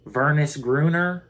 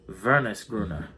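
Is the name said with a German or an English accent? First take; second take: English; German. First: The name is said with an English accent. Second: The name is said with a German accent. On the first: "I guess you could say, but that sounds weird" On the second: "You can't say that without an accent"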